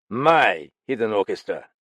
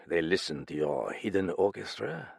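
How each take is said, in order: First: Loud curt snap on My hidden orchestra; indignant snap; snapped. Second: Said in the usual way. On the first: Acted. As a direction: spit back My hidden orchestra in disbelief. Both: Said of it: "Galland snapped".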